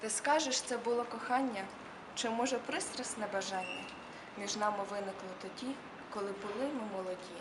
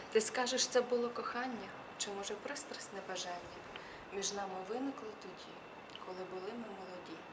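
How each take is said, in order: The two takes are said the same way.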